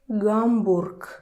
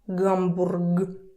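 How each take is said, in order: First: The word ends with a voiceless K sound. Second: The word ends with a voiced G sound. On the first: The speaker calls it right. "You say Hamburg. K, k" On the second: The speaker calls it wrong. "it's difficult to say Hamburg. Hamburg. Nobody does that"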